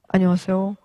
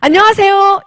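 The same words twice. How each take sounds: First: It is said low in pitch and sad. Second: It is said high in pitch and bright.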